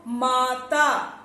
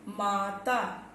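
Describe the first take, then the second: First: माता with the आ held long and slow; stretched long vowel. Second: Said in the usual way. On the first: Shown as a demonstration. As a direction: hold the long आ in माता slowly. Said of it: "आ के लिए शब्द लेते हैं". (माता में आ को लंबा खींचकर) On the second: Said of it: "आ के लिए जो शब्द लेते हैं".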